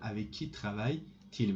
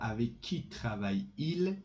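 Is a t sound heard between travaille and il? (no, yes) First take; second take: yes; no. First: A t sound links travaille and il. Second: Travaille runs straight into il with no t. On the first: The speaker calls it right. "you must put a T between them" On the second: The speaker calls it wrong. "Instead of avec qui travaille-il, this is difficult"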